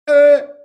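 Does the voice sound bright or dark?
dark. The voice sounds darker and fuller. The speaker calls it right. "I want to get my larynx down"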